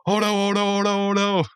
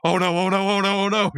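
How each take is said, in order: First: Hammed-up Homer panic; instant mock panic. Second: High mock panic, oh no on repeat; Homer-style panic. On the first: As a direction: flip straight into cartoon panic. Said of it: "Super calm and collected". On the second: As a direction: panic like Homer at a flip of a switch. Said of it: "Mordecai is so Homer".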